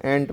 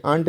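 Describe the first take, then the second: First: एंट with a short "e" vowel; the right short vowel; correct ant. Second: आंट with an open "aa" vowel; the wrong aa vowel; wrong aunt sound. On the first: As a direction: say एंट like "ent". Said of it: "एंट पढ़ते हैं". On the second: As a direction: say आंट like "aant". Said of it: "ये आंट नहीं पढ़ते हैं". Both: Shown as a demonstration.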